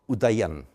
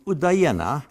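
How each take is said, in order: First: The word ends without a final vowel sound. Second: The word ends with a final vowel sound.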